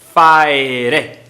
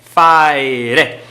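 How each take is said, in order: Both takes have the same delivery.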